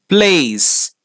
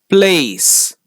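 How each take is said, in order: The two takes are said the same way.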